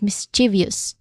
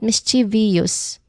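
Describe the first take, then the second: First: The word is said quickly with three syllables. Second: The word is said with an extra fourth syllable. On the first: The speaker calls it right. "there's only three distinct sounds in there" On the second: The speaker calls it wrong. "adding an extra syllable"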